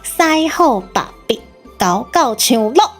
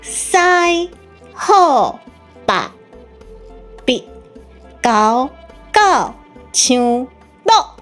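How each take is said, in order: First: It is said fast. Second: It is said slowly.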